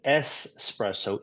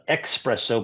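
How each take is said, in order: First: The word is said with an 's' sound. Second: The word is said with a 'ks' sound. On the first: The speaker calls it right. "but espresso, E S P R E S S O" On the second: The speaker calls it wrong. "not espresso"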